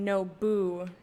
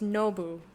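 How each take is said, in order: First: The stress is on the second syllable. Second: The stress is on the first syllable. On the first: It is the two words no boo. "the accent would be on the boo" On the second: It is the name Nobu. "accent on the no"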